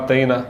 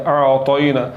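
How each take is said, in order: First: The t sound is light and thin. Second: The t sound is heavy and full. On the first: The speaker calls it wrong. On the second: The speaker calls it right.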